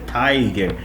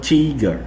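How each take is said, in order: First: The first vowel is a long 'eye' sound. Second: The first vowel is a short 'i' sound. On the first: The speaker calls it right. "é tiger" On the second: The speaker calls it wrong. "e não tiger"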